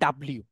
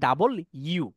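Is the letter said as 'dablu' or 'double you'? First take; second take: dablu; double you. First: It is said as one clipped word, 'dablu'. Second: It is said as two words, 'double you'. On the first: The speaker calls it wrong. "ডাব্লিউ বলতে কিন্তু অবশ্যই ইংলিশে কিছু নাই" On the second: The speaker calls it right. "এটাকে বলে ডাবল ইউ।"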